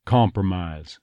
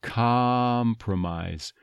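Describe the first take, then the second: First: "Compromise" with rounded first vowel; Texas "Compromise". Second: "Compromise" slow, with wide unrounded ah; open "Compromise". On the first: Coach contrasts Texas with American, rounded "Compromise". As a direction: round "Com", flatten the last vowel. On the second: Coach shows general American, open "Compromise". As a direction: softly stretch an open "Com" in "Compromise". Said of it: "Americans really commonly keep that very open". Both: Shown as a demonstration.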